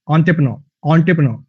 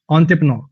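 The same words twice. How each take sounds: First: Entrepreneur said slowly, syllable by syllable, ending on -neur; careful pronunciation. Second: Said in the usual way. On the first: Shown as a demonstration. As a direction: spell out entrepreneur with slow, clear syllables. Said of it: "ऐसे करके इसकी pronunciation". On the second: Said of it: "ऐसे नहीं है".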